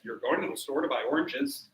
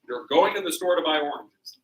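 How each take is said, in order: First: It is said with the tune of a question. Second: It is said with the tune of a statement. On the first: It asks whether the person is going to buy oranges. "that's a question" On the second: It tells that the person is going to buy oranges. "That's a statement"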